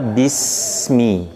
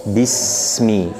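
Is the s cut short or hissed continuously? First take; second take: hissed; hissed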